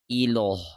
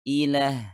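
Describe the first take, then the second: First: The l is heavy and thick. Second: The l is light and thin. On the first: The speaker calls it wrong. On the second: The speaker calls it right. "lebih halus"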